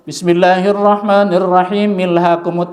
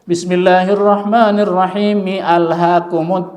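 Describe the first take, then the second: First: The al sound merges into the previous word. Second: The al sound is kept at the start. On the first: The speaker calls it wrong. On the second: The speaker calls it right. "Gitu bacanya yang benar"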